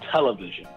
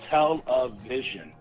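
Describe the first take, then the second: First: It is said at normal speed. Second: It is said slowly.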